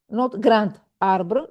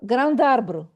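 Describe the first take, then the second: First: The words are said separately without linking. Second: The final consonant links into the next word. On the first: The speaker calls it wrong. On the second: The speaker calls it right. "all together"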